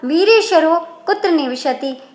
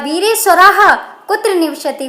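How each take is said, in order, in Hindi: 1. पहला शब्द 'o' ध्वनि से समाप्त होता है। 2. पहला शब्द 'ah' ध्वनि से समाप्त होता है। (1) "विसर्ग का वहां पर ओ नहीं होगा" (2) "सीधा सीधा विसर्ग दिखाएंगे"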